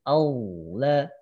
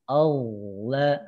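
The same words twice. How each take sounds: Both takes have the same delivery.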